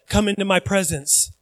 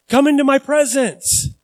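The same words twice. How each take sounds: First: Softer, grave call; hushed formal invitation; solemn invitation. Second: Bright, easy, higher invite; relaxed friendly call; casual invitation. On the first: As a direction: say it quietly like a solemn summons. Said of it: "but he will say". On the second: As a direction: toss it off like a friend calling you over. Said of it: "That's how I would say it". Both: Pretend.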